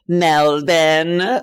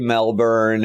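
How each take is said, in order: First: Melbourne is said with a put-on Australian pronunciation. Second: Melbourne is said with a plain American pronunciation. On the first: The speaker is pretending to sound local. The speaker calls it wrong. "Americans try to be Australian and say Melbourne" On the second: The speaker is not pretending to sound local. The speaker calls it right. "Just say Melbourne"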